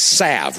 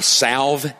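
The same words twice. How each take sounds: First: The L sound is silent in the word. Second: The L sound is pronounced in the word. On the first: "The American pronunciation is salve without the L" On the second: "they pronounce it I salve with the L"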